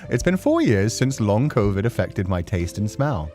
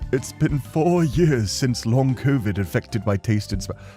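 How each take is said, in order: First: It is said in the speaker's normal voice. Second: It is said in a put-on old man voice. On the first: The speaker calls it right. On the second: The speaker calls it wrong.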